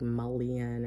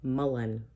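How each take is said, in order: First: The word ends with a 'lee-un' sound. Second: The word ends with a plain 'len' sound. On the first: The speaker calls it wrong. "I keep wanting to say like mullion or something" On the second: The speaker calls it right. "but it's mullen"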